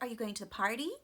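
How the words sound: The strong stress falls on the word party. It is an ordinary first question. "Strong stress on party in a normal pattern"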